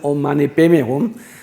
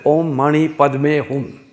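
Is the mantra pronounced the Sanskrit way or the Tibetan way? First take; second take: Tibetan; Sanskrit. First: It is pronounced the Tibetan way. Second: It is pronounced the Sanskrit way. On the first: "you're all used to Tibetan pronunciation" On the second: "in Sanskrit, you pronounce it as"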